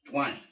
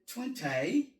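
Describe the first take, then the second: First: It is said with an American accent. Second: It is said with a British accent.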